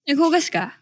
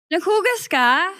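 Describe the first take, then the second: First: It is said in a sarcastic tone. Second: It is said in a happy tone.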